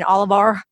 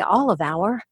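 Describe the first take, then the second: First: The word 'our' sounds like the letter R. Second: The word 'our' sounds like the word 'hour'. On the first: This is the old regional way of saying it. "rather than saying all of our" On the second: This is the newly learned way of saying it. "put an H in front of O-U-R so it didn't sound like R"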